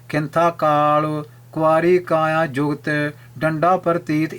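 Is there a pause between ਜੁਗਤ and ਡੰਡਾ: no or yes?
yes. There is a pause between ਜੁਗਤ and ਡੰਡਾ. The meaning becomes clear. The speaker calls it right. "ਵਿਰਾਮ ਦੇ ਕੇ"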